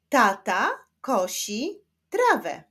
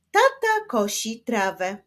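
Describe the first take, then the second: First: Put-on slow, syllable by syllable for children; teacher reading a sentence slowly to beginners. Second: Brisker, more fluent pace; faster reading. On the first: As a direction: sound out each word slowly. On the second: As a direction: read it through quicker, words joined. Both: Shown as a demonstration. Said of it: "ale w szybszym tempie".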